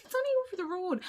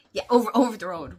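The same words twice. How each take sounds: First: A breezy, higher lilt; lightly mocking the casual Irish phrase; mock local saying. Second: Said in the usual way. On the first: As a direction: toss it off like it's nothing. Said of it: "We, we say that, don't we?". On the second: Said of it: "We, we say that".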